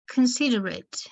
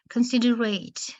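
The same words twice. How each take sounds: First: "Considerate" with a short unstressed ending, con-SID-er-it; adjective ending. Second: "considerate" with a full final "ate", con-sid-er-ATE; verb-style ending. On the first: Teacher reads a student's suggestion, "Considerate" ending in short "it". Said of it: "it's pronounced as considerate". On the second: Teacher shows the verb form, "considerate" ending in a full "ate". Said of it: "it is pronounced as considerate". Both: Shown as a demonstration.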